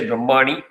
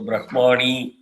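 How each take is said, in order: First: The final vowel is cut short. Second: The final vowel is held long. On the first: It becomes a different word. The speaker calls it wrong. "without that, if you say Brahmani, it's a completely different word" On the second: It is the intended word. The speaker calls it right. "Ni is Dirgham again"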